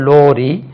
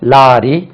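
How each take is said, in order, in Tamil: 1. முதல் உயிரெழுத்து 'oh' போல ஒலிக்கிறது. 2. முதல் உயிரெழுத்து 'ah' போல ஒலிக்கிறது. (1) "இது கேரளாவில்" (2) "இதெல்லாம் தமிழ்நாட்டில் வந்து"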